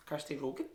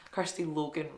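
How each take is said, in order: First: "Rogan" said with an R, unsure rising tune; wrong name. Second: "Logan" said clearly with an L, plain and settled; corrected name. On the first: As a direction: stumble over the name as "Kirsty Rogan?". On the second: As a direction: correct yourself to "Kirsty Logan". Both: Real, not acted. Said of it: "Kirsty Logan writes".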